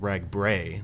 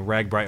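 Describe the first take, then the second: First: The last syllable rhymes with 'day'. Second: The last syllable rhymes with 'bee'. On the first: The speaker calls it right. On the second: The speaker calls it wrong.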